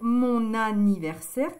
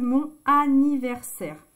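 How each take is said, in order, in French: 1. Le n se lie directement à la voyelle suivante. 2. Le n n'est pas lié à la voyelle suivante. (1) "C'est plus joli de dire"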